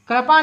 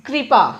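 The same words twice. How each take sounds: First: कृपा split as "karapa" with a vowel after k; teacher shows the wrong way to say कृपा, as "ka-ra-pa"; wrong pronunciation. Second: कृपा said "kri-pa", with k and ri joined; teacher gives the right कृपा, "kripa" with no vowel after k; correct pronunciation. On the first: Teacher to students, kripa mispronounced as karapa. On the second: Teacher to students, correct kripa after the wrong one. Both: Shown as a demonstration. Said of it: "कृपा नहीं".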